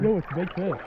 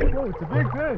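First: It is said with less enthusiasm. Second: It is said with more enthusiasm.

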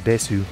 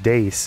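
First: The word ends with a clear final u vowel. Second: The word ends without a final vowel sound. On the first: The speaker calls it wrong. "and not Desu. Why did you romanize that U in there then?" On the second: The speaker calls it right. "It was actually just Dace"

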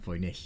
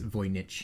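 First: The name gets a Germanic-sounding pronunciation. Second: The name gets an anglicized Polish pronunciation. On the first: The speaker calls it wrong. "and not Voynich, as I have been saying" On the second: The speaker calls it right. "So it is Voynich"

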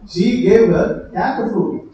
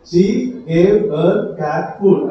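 First: There is a pause after 'her'. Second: There is a pause after 'cat'.

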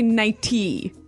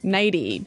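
First: The middle consonant is a clear T sound. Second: The middle consonant sounds like a soft D. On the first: The speaker calls it wrong. "You don't say nighty" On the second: The speaker calls it right. "you make the T a D"

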